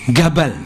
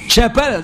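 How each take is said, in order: First: The word begins with a hard g sound. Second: The word begins with a j sound. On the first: "Pakai go" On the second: "mengucapkan jim"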